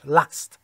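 The vowel is a short flat 'a' sound. "در شمال بریتانیا همه ا میگنش"

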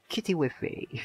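It is said in a put-on British accent.

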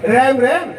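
The vowel is an 'ai' sound, like English. The speaker calls it wrong. "अब उन्हें राम राम तो कहना नहीं आया, वो कह रैम रैम"

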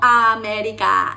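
It is said with Spanish vowels and sounds. The speaker calls it wrong. "no América"

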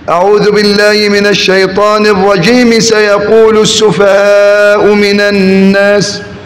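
The first phrase runs straight into the next. "أو وصلها بأول الصورة"

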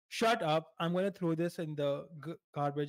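It is said in a harsh, mean tone. The threat is meant seriously and hurtfully. The speaker calls it wrong. "I'm not being an asshole. I'm not being like a mood killer"

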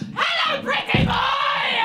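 It is said in an odd put-on voice.

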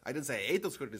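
The stress is on the word 'ate'. The speaker did something else to them. "I might have squashed them or trampled them or sold them"

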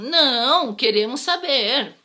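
There is a pause right after 'não'. No; we do want to know. "se eu coloco uma vírgula depois do não, fica assim"

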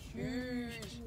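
It is said in a low pitch.

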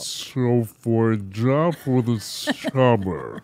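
It is said in a put-on voiceover voice.

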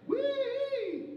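The voice is clean, neither airy nor strained. The speaker calls it right. "So we wanna make sure we're coming in just right"

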